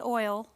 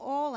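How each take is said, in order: First: It is said with a standard, careful pronunciation. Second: It is said with a Southern regional accent. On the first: This is the more formal, polished way of saying it. "grown up and fancy, I will say oil" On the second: This is the everyday home way of saying it. "growing up in South Arkansas"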